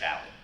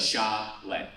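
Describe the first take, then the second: First: The name is said quickly. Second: The name is said at a normal speed.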